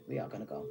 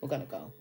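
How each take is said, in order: First: "We are gonna go", drop the pitch much lower and stretch "are"; low, determined "We are gonna go"; firm insistence. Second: Said in the usual way. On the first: Shown as a demonstration.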